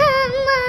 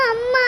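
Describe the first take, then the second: First: அம்மா wailed out higher; wailing call. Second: Crying out அம்மா through a sob; sobbing call. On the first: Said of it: "ஏன் சாமி இப்படி அலற?". (ஓலமிட்டு அம்மா என்று கதறுதல்) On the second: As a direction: sob the word அம்மா to mother. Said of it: "எதுக்கு இப்படி அழுந்துட்டு கிடக்குற?". (அழுதபடி அம்மா என்று அழைத்தல்) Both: Acted.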